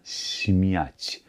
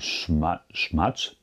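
First: The first consonant is soft, with spread lips. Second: The first consonant is a hard sh sound. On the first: The speaker calls it right. "Also schön aus der Breite" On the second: The speaker calls it wrong. "Kein Schmatsch"

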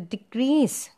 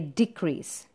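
First: The stress is on the second syllable. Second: The stress is on the first syllable. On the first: It is a verb: to reduce. "The second syllable is stressed there" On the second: It is a noun: a reduction. "the stress is on D, it is a noun"

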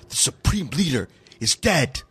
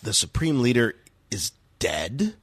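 First: It is said as a plain statement. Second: It is said as a disbelieving question.

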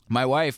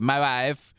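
First: It is said in his normal voice. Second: It is said in a Borat impression.

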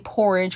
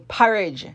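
First: It is said with a standard mainland pronunciation. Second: It is said with a Caribbean island pronunciation. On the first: This is how outsiders say it. "We don't say porridge" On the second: This is how islanders say it. "we say porridge"

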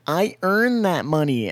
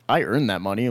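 First: It is said in a whiny, complaining voice. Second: It is said in a plain, normal voice. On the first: Someone else said it. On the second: The speaker means it personally.

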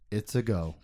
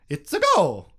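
First: It is said in a normal voice. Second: It is said in a Mario-like voice.

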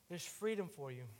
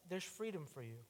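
No difference in how they are said.

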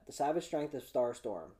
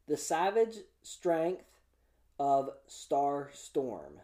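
First: The phrase is said quickly. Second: The phrase is said slowly and carefully. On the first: "Let's try that" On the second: "I was afraid to say that too fast"

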